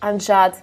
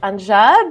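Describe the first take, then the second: First: It is said in a serious tone. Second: It is said in a sarcastic tone. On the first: The speaker is truly asking if it is real. "This is serious" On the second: The speaker doubts what was said. "like that sarcastic"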